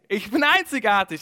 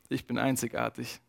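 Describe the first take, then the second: First: It is said in a happy, pleased tone. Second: It is said in a dejected, disappointed tone. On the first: Being unique feels like a good thing. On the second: Being unique feels like a bad thing.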